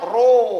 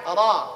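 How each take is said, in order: First: The vowel is a rounded 'o'. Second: The vowel is an open, unrounded 'a'. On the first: The speaker calls it wrong. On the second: The speaker calls it right.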